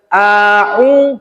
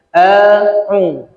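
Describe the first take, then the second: First: The vowel is opened very wide. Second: The vowel is opened moderately, lips spread. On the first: The speaker calls it wrong. "Kalau yang lebar kali salah juga" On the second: The speaker calls it right. "Macam senyum"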